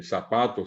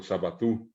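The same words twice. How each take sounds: First: "zapato" as za-PA-to; Spanish stress. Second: "zapatú" ending on a stressed U; Guaraní final stress. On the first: Teacher giving another example, middle stress. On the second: Teacher giving the Guaraní form, final stress. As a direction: push TÚ in "zapatú". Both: Shown as a demonstration. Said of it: "ponerles otros ejemplos".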